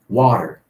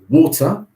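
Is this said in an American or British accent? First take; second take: American; British. First: It is said with an American pronunciation. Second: It is said with a British pronunciation. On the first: "the Americans would say water" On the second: "When I say water"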